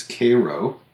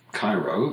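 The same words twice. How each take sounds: First: Cairo as KAY-roh; long A in the first syllable of Cairo; Georgia pronunciation. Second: Said in the usual way. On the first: Shown as a demonstration. Showing how Georgia says it, Cairo pronounced KAY-roh. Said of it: "in Georgia is Cairo". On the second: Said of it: "the capital of Egypt".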